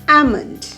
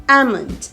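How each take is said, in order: Both takes have the same delivery.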